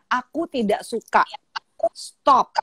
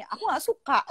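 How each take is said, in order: First: Firm. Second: Imitated child's whine, higher pitched; complaining daughter. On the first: Retold or imitated. Mother models refusal for daughter to copy, slow firm tone. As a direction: set the boundary in your own steady voice. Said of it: "dengan tegas dan dengan suara yang senada". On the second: Daughter tells mother she dislikes it, imitated high whine. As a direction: whine it lightly like a schoolgirl. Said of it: "dia bilang gitu".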